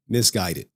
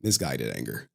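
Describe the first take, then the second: First: Said in the usual way. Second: Misguided anger dropped far lower and quieter; deep mock-grave voice. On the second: Real, not acted. Streamer mocking his own rant to the chat in a deep grave voice. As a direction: sink into a low, grave rumble.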